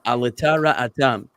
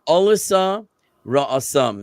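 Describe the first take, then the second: First: It uses a Sephardic Hebrew pronunciation. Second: It uses an Ashkenazic Hebrew pronunciation.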